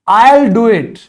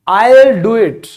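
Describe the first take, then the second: Both takes have the same delivery.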